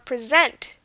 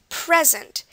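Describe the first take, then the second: First: The stress is on the second syllable. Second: The stress is on the first syllable. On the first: It is a verb meaning to show something. "with the stress on the other syllable" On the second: It is a noun meaning a gift. "I'm putting stress on the pre"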